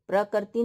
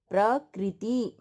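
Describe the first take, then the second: First: The r sound is followed by an 'a' vowel. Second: The r sound is followed by an 'i' vowel. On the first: The speaker calls it wrong. "प्रकृति नहीं" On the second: The speaker calls it right. "क्योंकि ये री है"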